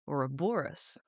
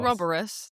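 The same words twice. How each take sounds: First: The main stress is on the third syllable. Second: The main stress is not on the third syllable. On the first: The speaker calls it right. "Stress on the third syllable" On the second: The speaker calls it wrong. "It's not Ouroboros"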